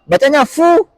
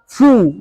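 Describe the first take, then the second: First: The vowel is said without rounded lips. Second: The vowel is said with lips rounded forward. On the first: The speaker calls it wrong. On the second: The speaker calls it right. "harus fu, monyong ke depan"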